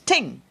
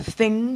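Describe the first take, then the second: First: It begins with a hard t sound. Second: It begins with a soft th sound.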